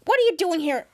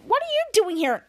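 First: Captain Man. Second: Higher, louder echoing question; higher echoing shadow. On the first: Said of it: "Captain Man's like". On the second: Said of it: "a priest shadow said". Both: Retold or imitated.

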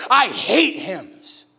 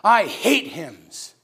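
First: Slow drawn-out disdain. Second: I hate hymns stretched very slow; slow drawn-out disdain. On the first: Ladies in line sneering at the hymns, slow. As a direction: drag out I hate hymns, very slow. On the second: Preacher repeating the ladies' line to the congregation, slow. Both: Retold or imitated. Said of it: "They said it just like that".

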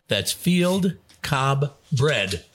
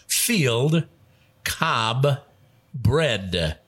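First: "That's field cob bread" run together, very slow; slow restatement. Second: "Field", "cob", "bread" each said alone with a pause between; separate words. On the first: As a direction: read "That's field cob bread" slowly as one phrase. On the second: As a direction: set "Field" "cob" "bread" apart as three separate clues. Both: Shown as a demonstration.

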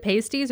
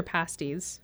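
First: "pasties" with a long A, like paste; first syllable of "pasties" rhymes with pay; long A pronunciation. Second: "pasties" with a short A, like past; first syllable of "pasties" as in pass; short A pronunciation. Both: Shown as a demonstration. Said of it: "is it pasties or pasties".

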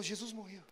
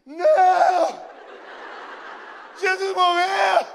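First: Soft, low and matter-of-fact; quiet retold statement. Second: High, very loud, drawn-out wail of horror; hammed-up scream. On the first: Man with the Bible explaining to the seeker, quietly. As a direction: state it softly, dropping the pitch. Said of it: "ele falou". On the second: Two friends reacting together to the priest's news, screaming. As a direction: scream it out slowly in mock anguish. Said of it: "a gente gritou junto".

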